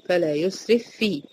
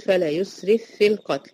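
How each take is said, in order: First: فلا يسرف في said slowly, the two ف sounds laid out one by one; slow demonstration. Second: فلا يسرف في القتل recited with يسرف في joined into one doubled ف; merged recitation. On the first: Teacher slowing down to show the two letters. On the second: Teacher showing the letters merged into one doubled sound. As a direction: merge the two ف into one held ف. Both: Shown as a demonstration. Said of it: "بقت فيه واحدة مشددة بنطقها".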